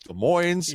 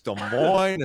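First: The S at the end of Des is pronounced. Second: The S at the end of Des is silent. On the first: "the other people say it's got an S" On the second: "the original people said it's Des Moines"

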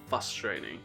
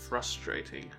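First: The R sound after F is dropped. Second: The R sound after F is pronounced. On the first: The speaker calls it wrong. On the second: The speaker calls it right.

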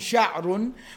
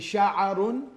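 First: No vowel follows the ayn, giving two syllables. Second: A vowel follows the ayn, giving three syllables. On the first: "with a sukoon on the ayn" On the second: "with a fatha on the ayn"

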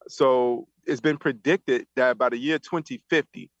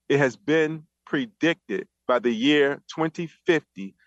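First: It is said at normal speed. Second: It is said slowly and deliberately.

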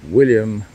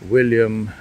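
The two takes are said the same way.

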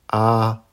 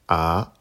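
First: The pitch stays high and level. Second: The pitch rises from mid to high. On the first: "Avec le premier ton" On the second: "Deuxième ton"

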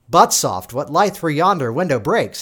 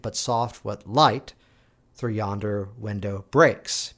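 First: The stress falls on the word 'but'. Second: The stress falls on the word 'breaks'. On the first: It sounds like the words 'butt soft' go together. The speaker calls it wrong. "he's not quite sure exactly where to put the emphasis. And there's the audience member saying, "The heck's a butt soft?"" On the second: The speaker is noticing the light breaking. The speaker calls it right. "Because the light is breaking, and that's what he's now noticing"

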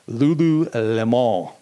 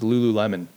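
First: The name is said with a fancy flourish. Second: The name is said in a plain way. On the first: The speaker calls it wrong. "I want to give it like a little bit of panache" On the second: The speaker calls it right. "but it's just Lululemon"

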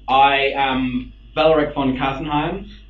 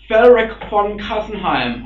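First: It is said in his natural voice. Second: It is said in a put-on character voice.

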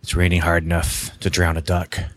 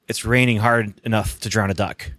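First: It is read in a put-on noir narrator voice. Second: It is read in his plain voice.

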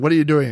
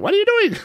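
First: It is said at a normal speed. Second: It is said sped up, like a parrot.

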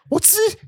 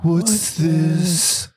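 First: It is said with lively, joyful excitement. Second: It is said flat and dull, without energy. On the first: The speaker is delighted by a wonderful discovery. The speaker calls it right. "that's how you say it" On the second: The discovery means nothing special to the speaker. The speaker calls it wrong. "they're just like"

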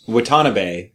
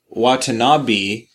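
First: The last vowel sounds like 'ay'. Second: The last vowel sounds like 'ee'. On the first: The speaker calls it right. "E is pronounced A" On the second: The speaker calls it wrong. "if it was Watanabe, it would have an I at the end"

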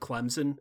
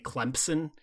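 First: No 'p' sound follows the 'm'. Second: A 'p' sound follows the 'm'.

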